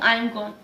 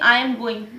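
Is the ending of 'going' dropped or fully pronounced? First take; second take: dropped; fully pronounced. First: The ending of going is dropped. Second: The word going is said in full. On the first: "मैं यहाँ पे गोइंग silent करके मैं कहती हूँ" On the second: "मैं ये भी कह सकती हूँ कि"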